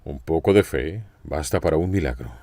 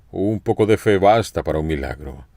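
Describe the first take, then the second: First: Said in the usual way. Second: Emphatic restatement. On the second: Shown as a demonstration. Preacher repeating the principle to the congregation, emphatically. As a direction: drive the principle home. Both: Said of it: "Aquí está el principio".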